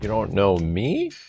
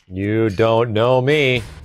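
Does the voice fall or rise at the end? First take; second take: rises; falls. First: The voice rises at the end, like a question. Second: The voice falls at the end, like a statement. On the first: It is a question. The speaker calls it right. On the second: It is a statement. The speaker calls it wrong.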